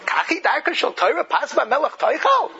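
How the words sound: It is said as an amazed question.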